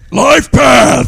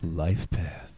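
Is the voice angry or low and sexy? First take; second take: angry; sexy. First: It is said in an angry voice. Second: It is said in a low, sexy voice.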